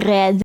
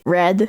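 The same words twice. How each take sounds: First: The R is made in the throat. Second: The R is a smooth English-like R. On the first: "in a throat kind of R" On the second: "some people cannot roll the R"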